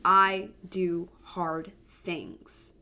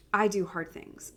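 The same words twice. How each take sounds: First: I do hard things, said very slowly and deliberately; slow affirmation. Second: Said in the usual way. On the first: Shown as a demonstration. Mom sharing her yearly affirmation, slow and deliberate. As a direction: plant each word of I do hard things like a mantra. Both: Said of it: "my number one affirmation".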